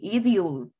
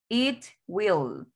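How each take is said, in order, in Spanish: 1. Se contrae, suena como it-ull. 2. Ambas palabras se dicen completas, con una w clara. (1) "Aquí se pronuncia así" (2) "En forma larga"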